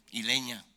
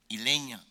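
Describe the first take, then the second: No difference in how they are said.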